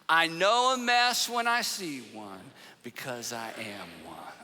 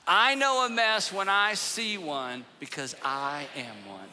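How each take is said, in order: First: It is said calmly and quietly. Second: It is said fiercely and with force.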